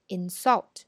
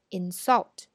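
First: The stress is on the second syllable. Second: The same.

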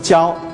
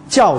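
First: The syllable is said with a level tone. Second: The syllable is said with a falling tone. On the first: It is used as a verb, to teach. "教书的教平声" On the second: It is used in a noun, teacher. "就这声"

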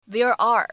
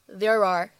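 First: The two words are said separately, not joined. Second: The two words run together without a break. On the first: "如果你不连读也是没有任何问题的" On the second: "我们可以自然的带一个连读"

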